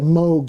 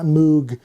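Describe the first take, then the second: First: The word rhymes with 'vogue'. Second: The word does not rhyme with 'vogue'. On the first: The speaker calls it right. "you say it Moog, rhymes with Vogue" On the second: The speaker calls it wrong. "not Moog"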